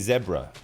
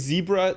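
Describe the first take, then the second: First: The word is said in a British accent. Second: The word is said in a non-British accent. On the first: "they say zebra. ... that is a very British pronunciation of zebra" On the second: "I say zebra"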